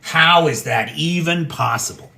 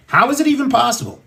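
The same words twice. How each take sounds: First: Said in the usual way. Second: Higher and faster, incredulous; rising exasperated repeat of the question; exasperated disbelief. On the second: Real, not acted. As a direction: fire the question back up in outrage. Repeats the question, then escalates.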